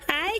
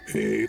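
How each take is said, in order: First: It is said in a very high-pitched voice. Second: It is said in a low, deep voice.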